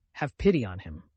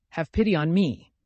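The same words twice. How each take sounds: First: Lower, grave entreaty; pleading. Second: Louder, raised reproachful plea; bitter reproach. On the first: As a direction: appeal firmly for someone else. Alyosha pleads for his brother. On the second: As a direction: throw the plea back bitterly. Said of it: "Katya said with bitter reproach". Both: A narrator's reading.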